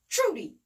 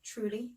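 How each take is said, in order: First: Sharp, high call that falls away; insistent call. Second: Soft, tentative call with rising tone; questioning call. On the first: Woman calling Trudy after no answer, insistent call. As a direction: call out louder, demanding an answer. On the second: Woman checking whether Trudy is there, questioning call. Calling for Trudy, first try. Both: Acted.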